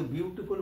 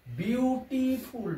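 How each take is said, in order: First: Said in the usual way. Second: "বিউটিফুল" drawn out slowly, syllable by syllable. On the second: Shown as a demonstration. Teacher showing students the syllables, "বিউটিফুল" slowly broken up. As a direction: stretch each syllable of "বিউটিফুল" separately. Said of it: "double syllable যুক্ত".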